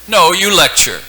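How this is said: It is said as a firm, forceful command. The speaker is ordering him to do it. "And then he gave the command"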